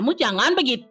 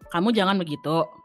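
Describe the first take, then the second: First: It is said at a slightly raised pitch. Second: It is said at a plain, usual pitch. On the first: This is how the speaker talks in a Balinese style. "if I go full Bali, I will slightly pitch myself" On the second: This is how the speaker usually talks in Indonesian. "here's me speaking in Indo usually"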